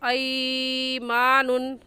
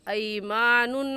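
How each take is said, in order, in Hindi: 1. पहला स्वर लंबा खींचकर बोला जाता है। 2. पहला स्वर नरम और छोटा होता है। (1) "ऐमानुन गलत है" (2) "सही क्या है"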